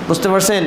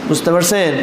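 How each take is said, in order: The two takes are said the same way.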